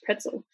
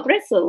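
First: Pretzel with a plain English P, quiet aside. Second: Bretzel with a German B, as the locals say it. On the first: Explaining the word to a friend, English pretzel. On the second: Telling a friend about the Berlin snack stand, German bretzel. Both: Shown as a demonstration. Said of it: "in English".

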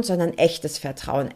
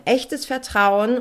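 First: Said in the usual way. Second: Echtes Vertrauen slowed down, each word leaned on, higher with a rising end; slow emphatic repeat. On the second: Shown as a demonstration. To her podcast listeners, underlining Echtes Vertrauen slowly. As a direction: drag out Echtes Vertrauen so it sinks in. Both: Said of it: "und jetzt aufgepasst".

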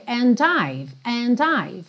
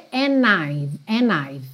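First: "and I've" with a clear linking D. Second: "and I've" with the D dropped; and I've without D. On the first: Teacher showing "and I've" with the D kept. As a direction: land the D into "I've". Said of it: "Se você prefere com o D". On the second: Teacher showing the informal "and I've" without the D. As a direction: run "and" into "I've" with no D. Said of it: "Se você prefere sem o D". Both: Shown as a demonstration.

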